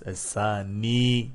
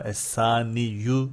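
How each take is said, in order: First: The word ends on a long 'i' sound. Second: The word ends with a final 'yu' sound. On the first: The speaker calls it right. "Es-sani diye okunur" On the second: The speaker calls it wrong. "Bu da es-saniyu diye okunmaz"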